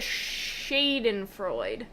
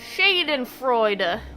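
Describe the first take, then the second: First: The final E is left silent. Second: The final E is pronounced.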